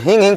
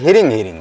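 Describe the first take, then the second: First: The word is said without an r sound. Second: The word is said with an r sound. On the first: The speaker calls it wrong. "जो उसमें जो हिंग हिंग पढ़ते हैं ना" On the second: The speaker calls it right. "वो महाराज जी हिरिंग हिरिंग है"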